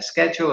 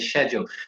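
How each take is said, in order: First: It is said with an American pronunciation. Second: It is said with a British pronunciation. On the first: The listener is American. "if I'm talking to my American teachers, I would say" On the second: The listener is British. "if I'm talking to Brits, I would say"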